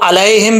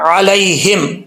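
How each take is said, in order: First: The opening throat consonant is weak or missing. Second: The opening throat consonant is clearly pronounced. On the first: The speaker calls it wrong. "अब इसको अलैहिम भी नहीं पढ़ना" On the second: The speaker calls it right. "आइन को क्लियर करना है"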